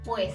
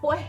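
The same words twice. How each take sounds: First: The final s is clearly pronounced as s. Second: The final s is aspirated like an h. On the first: It is how people in the west say it. "en la parte del occidente dicen pues ... no tienen problemas con las S al final" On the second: It is how people in the east say it. "En el oriente decimos pues"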